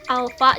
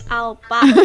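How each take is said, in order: First: The middle consonant is pronounced as f. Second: The middle consonant is pronounced as p. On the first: "Alfa jadi" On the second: "jadi alpa"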